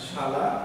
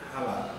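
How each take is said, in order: First: The word begins with a sh sound. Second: The word begins with an h sound.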